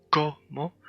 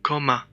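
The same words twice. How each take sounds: First: Como with stress on the first o and a clear o at the end; como, both vowels o, first one stressed. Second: Coma with the unstressed o reduced to a, the wrong way; Russian-style A. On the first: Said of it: "Since it has the accent in the first O". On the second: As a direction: mimic a Russian saying coma for como. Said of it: "a Russian would say coma". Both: Shown as a demonstration.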